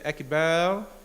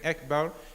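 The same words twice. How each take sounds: First: The vowel after the b is drawn out long. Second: The vowel after the b is short. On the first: The speaker calls it wrong. "with the extension on the bat" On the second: The speaker calls it right. "instead of saying Akbar"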